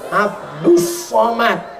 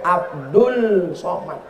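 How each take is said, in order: First: The first word ends in an s sound. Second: The first word ends in an l sound. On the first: This is how the name is actually read. "tapi cara bacanya" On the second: This is how the name is written.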